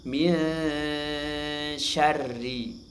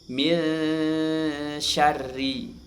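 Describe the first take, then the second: The two takes are said the same way.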